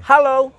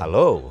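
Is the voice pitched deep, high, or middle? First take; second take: middle; deep. First: The word is said at a middle pitch. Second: The word is said at a deep, low pitch. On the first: "itu middle" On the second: "itu tune deep"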